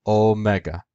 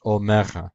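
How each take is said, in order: First: Omega with both accents, classical style; "omega" the classical Greek way. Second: "omega" with no stress on the first syllable; modern Greek omega. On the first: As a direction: say "omega" with two stressed syllables, O and ME. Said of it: "In classical Greek, it was pronounced like omega". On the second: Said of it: "without the first accent". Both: Shown as a demonstration.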